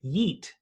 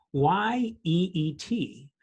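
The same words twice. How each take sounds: First: Said in the usual way. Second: Y E E T spelled letter by letter, slowly. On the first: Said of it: "the word that they were using was the word". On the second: Shown as a demonstration. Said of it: "the word".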